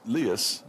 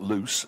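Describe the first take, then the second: First: It is said with two syllables, like 'lee-us'. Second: It is said as one syllable, like 'loose'. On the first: The speaker calls it right. "it's Lias" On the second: The speaker calls it wrong. "not loose"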